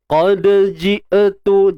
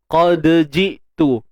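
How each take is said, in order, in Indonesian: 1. Bunyi vokal tambahan mengikuti hamzah. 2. Hamzah tertutup dengan bersih tanpa vokal tambahan.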